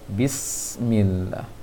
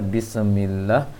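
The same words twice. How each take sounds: First: The s sound flows with a steady stream of air. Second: The s sound is released too quickly and bounces. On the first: The speaker calls it right. "hati-hati untuk sin jangan dibanturkan, dialirkan anginnya" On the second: The speaker calls it wrong. "Terlalu cepat barangkali melepaskan sinnya sehingga terpantulkan dia"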